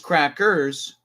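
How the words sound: The word is pronounced carefully and fully. The speaker calls it right. "the word is crackers"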